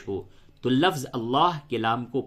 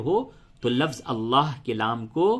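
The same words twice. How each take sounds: The two takes are said the same way.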